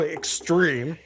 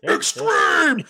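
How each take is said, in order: First: The word is said at normal volume. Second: The word is screamed loudly. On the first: The speaker calls it wrong. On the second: The speaker calls it right.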